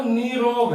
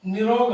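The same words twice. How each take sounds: First: Long "nee" in निरोग, drawn out; correct pronunciation. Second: Short "ni" in निरोग; wrong pronunciation. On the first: Teacher giving students the correct word, long ee in निरोग. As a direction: stretch the first vowel of निरोग: nee-rog. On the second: Teacher rejecting the common form, short i in निरोग. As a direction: say निरोग with a quick first i: ni-rog. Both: Shown as a demonstration. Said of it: "निरोग नहीं है".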